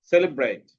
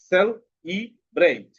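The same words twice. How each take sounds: First: Said in the usual way. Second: "celebrate" slow, in three beats with gaps; split into syllables. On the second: Shown as a demonstration. Teacher dividing a word for pupils, "celebrate" split slowly. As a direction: pull "celebrate" apart syllable by syllable. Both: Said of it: "সিলেবালের মাধ্যমে শব্দ ভাগ".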